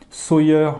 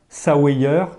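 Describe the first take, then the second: First: The name is pronounced with English-style sounds. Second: The name is pronounced with French-style sounds. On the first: The speaker calls it right. "je pense que la prononciation est plutôt Sawyer Mini" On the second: The speaker calls it wrong. "donc ça c'est dû à mon grand niveau d'anglais"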